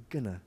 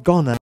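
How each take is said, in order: First: "gonna" with a light schwa, barely said; the soft, correct version; right gonna. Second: "gonna" said with a full "ah" vowel and made louder; the overdone version; wrong gonna. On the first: Teacher shows the correct light "gonna". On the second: Teacher shows the wrong, overdone "gonna". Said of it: "it's not". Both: Shown as a demonstration.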